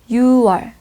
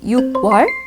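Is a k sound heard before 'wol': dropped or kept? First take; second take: dropped; kept. First: No k sound is heard before 'wol'. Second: A k sound is heard before 'wol'. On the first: The speaker calls it right. "final consonant, 받침, disappears. That's why it's pronounced as 유월" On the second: The speaker calls it wrong. "did Dilara say 육 월 by combining the numbers six"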